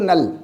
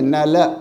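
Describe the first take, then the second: First: The word ends on the consonant l. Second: The final l is followed by a short vowel. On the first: This is the Hindi reading. "Hindi में पढ़ेंगे इसको नल" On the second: This is the Sanskrit reading. "Sanskrit में नल"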